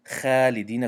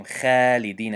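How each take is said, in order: First: خالدین with a light kha and a thin a; the wrong خالدین, mouth not full. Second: خالدین with a thin kha, mouth not full; خالدین with a flat light kha; wrong light kha. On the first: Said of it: "بنابراین خالدین گفتن حق نداریم". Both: Shown as a demonstration.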